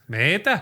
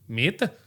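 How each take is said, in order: First: It is said in a Canadian accent. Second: It is said in a French accent.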